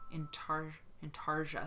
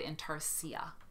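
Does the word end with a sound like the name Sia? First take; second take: no; yes. First: The ending does not sound like Sia. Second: The ending sounds like the name Sia. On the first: The speaker calls it right. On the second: The speaker calls it wrong.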